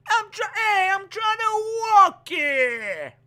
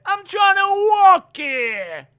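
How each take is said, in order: First: Put-on very slow, high drawn-out Texas accent. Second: Put-on loud, high shouted Texas accent. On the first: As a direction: stretch it out in a jokey Texas accent. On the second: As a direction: yell it in a jokey Texas accent. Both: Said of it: "That's my Texas accent".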